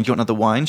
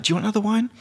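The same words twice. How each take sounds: First: Said in the usual way. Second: Much higher, lilting offer; mimicking her. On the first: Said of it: "rather than me saying". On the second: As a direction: lift the whole line up high like her. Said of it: "She was like".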